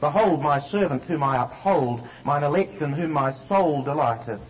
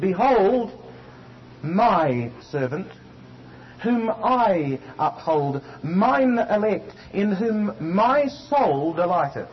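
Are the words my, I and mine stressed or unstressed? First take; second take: unstressed; stressed. First: The words my, I and mine are not stressed. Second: The words my, I and mine are stressed.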